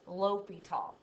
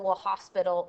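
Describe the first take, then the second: First: No s sound is heard before the t. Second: An s sound is heard before the t. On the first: The speaker calls it right. "it's L'Hopital" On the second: The speaker calls it wrong. "don't say hospital or Le Hospital"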